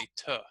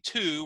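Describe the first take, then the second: First: The vowel in to is a weak schwa. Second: The vowel in to is a full oo. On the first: "we're going to say to" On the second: "instead of saying to"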